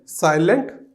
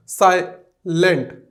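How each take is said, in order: First: Said in the usual way. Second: silent slowly in two beats, साइ, pause, lent; split into syllables. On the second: Shown as a demonstration. Teacher demonstrating two syllables, silent slowly split as साइ-लेंट. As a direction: break silent after साइ. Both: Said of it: "दो syllables में पढ़ा जाता है".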